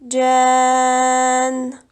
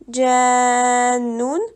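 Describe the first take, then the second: First: The word ends on a consonant, no ending. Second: The word ends with an added un sound. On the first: The speaker calls it right. "on dit tout simplement jann" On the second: The speaker calls it wrong. "Au lieu de dire jannun"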